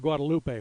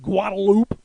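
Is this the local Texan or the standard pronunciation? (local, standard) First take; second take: standard; local. First: It is said the standard way. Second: It is said the local Texan way.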